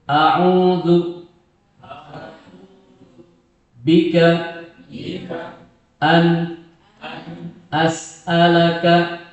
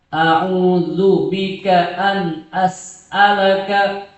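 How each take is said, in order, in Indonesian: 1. Frasanya dibaca dengan jeda di antara bagian-bagiannya. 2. Frasanya dibaca lancar tanpa jeda.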